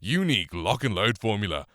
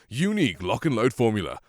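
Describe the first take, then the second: First: The voice is processed with boosted upper mids. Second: The voice is plain without added processing. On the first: "here is basically how it sounds" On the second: "And now with the regular voicing"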